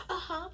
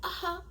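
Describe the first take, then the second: No difference in how they are said.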